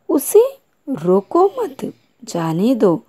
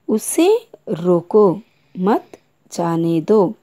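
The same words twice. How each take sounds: First: The pause comes after मत. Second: The pause comes after रोको.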